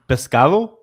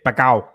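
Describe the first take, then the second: First: The s sound in the middle is pronounced. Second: The s sound in the middle is dropped. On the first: This is the standard Spanish form. "pescado is fish" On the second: This is how Cuban speakers say it. "they don't pronounce the letter S"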